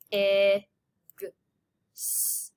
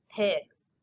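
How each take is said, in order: First: "P, I, G, S" as bare phonemes with pauses; stretched out sound by sound. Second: Said in the usual way. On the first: Shown as a demonstration. Teacher segmenting pigs for students, sound by sound. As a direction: sound out pigs, not the letter names. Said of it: "get your fingers ready to stretch it out". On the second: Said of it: "Number four is pigs".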